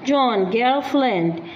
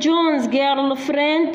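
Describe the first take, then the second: First: No s sound follows John. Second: An s sound follows John. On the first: "يشيلون الأس مال التملك يحذفوه" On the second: "مو إحنا نقول"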